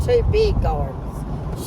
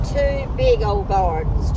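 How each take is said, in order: First: "two big gardens" drawn out high and slow; fond emphasis on "two big gardens"; emphatic repeat. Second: Said in the usual way. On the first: Real, not acted.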